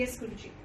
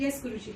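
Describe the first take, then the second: First: Much softer, meek sheepish yes; softly and sheepishly admitting it to her guru. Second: Said in the usual way. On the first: Retold or imitated. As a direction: shrink down and mumble it softly. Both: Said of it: "But very sheepishly".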